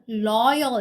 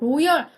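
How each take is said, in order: First: It starts with a clear English L sound. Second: It starts with a Korean-style R-like sound. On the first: The speaker calls it right. "loyal 이렇게 가셔야 되는 거다" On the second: The speaker calls it wrong. "발음 로열 하지 마십시오"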